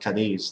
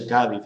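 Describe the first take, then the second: First: The stress is on the second syllable. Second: The stress is on the first syllable. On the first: This is how the name is said in English. The speaker calls it right. "with the accent in the second syllable" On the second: This is how the name is said in Spanish. The speaker calls it wrong. "they don't say Cádiz"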